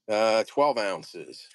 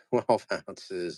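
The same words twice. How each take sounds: First: Said in the usual way. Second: Laughing. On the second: Real, not acted. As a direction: say it through a chuckle. Repeats weight laughing.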